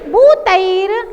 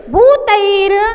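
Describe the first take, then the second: No difference in how they are said.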